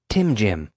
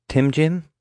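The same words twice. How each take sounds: First: Said in the usual way. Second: High, rising doubtful echo; doubtful question. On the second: A narrator's reading. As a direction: repeat it, trying not to scoff. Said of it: "trying not to sound too dismissive".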